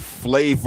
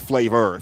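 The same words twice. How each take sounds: First: It is said with a British-style pronunciation. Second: It is said with an American-style pronunciation. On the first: "They say flavor or something" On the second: "but we say flavor"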